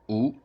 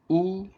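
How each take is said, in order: First: The pitch rises from mid to high. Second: The pitch stays high and level. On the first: "Second tone" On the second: "The first tone"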